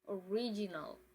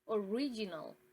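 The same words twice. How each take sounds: First: It is pronounced the English way. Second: The same.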